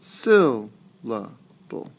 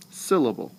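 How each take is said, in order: First: Syllable very slow, with pauses between syllables; SYL... la... ble, first beat strongest; broken into syllables. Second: Syllable in one piece, falling from SYL; SYL-la-ble joined up at normal speed; natural falling stress. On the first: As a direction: pull Syllable apart into three slow beats. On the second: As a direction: say Syllable whole, voice going down. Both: Shown as a demonstration. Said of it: "Same thing".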